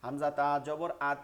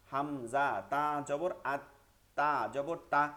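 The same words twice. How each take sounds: First: Said in the usual way. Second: Each syllable drawn out slowly for students to copy; slow spelling drill. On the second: Shown as a demonstration. Teacher slowly spells the word for students to repeat. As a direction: spell it slowly so the class can follow. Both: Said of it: "বানানটা আমার সাথে কয়েকবার করেন".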